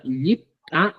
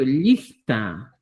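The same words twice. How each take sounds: First: "lipta" with a p before t; correct form. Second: "lifta" with a throaty kh before t; nonstandard variant. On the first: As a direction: say "lipta" as lip-ta. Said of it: "tu correcta será lipta". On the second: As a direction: say "lifta" as likh-ta. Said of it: "Si escribías hasta el momento". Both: Shown as a demonstration.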